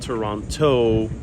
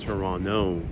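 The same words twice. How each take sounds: First: The second T is clearly pronounced. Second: The second T is left silent. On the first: This is not how locals say it. The speaker calls it wrong. "it's not Toronto for the Canadians" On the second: This is how locals say it. The speaker calls it right. "Canadians pronounce the second T silent. It's silent"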